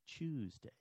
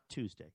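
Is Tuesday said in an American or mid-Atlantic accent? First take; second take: mid-Atlantic; American. First: It is said in a mid-Atlantic accent. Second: It is said in a plain American accent. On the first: The speaker calls it right. "they were still teaching American English" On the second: The speaker calls it wrong. "Not Tuesday"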